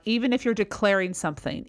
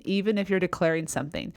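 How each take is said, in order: First: "something" left open like a question; question-like ending. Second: "something" dropping at the end; lower ending. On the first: Coach showing a declaration that sounds unsure, question-like. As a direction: say the statement as if it ended with a question mark. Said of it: "as if you've ended with a question mark". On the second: Coach showing a declaration that sounds sure, falling ending. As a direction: say it faster and let "something" fall. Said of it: "ends on a lower intonation". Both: Shown as a demonstration.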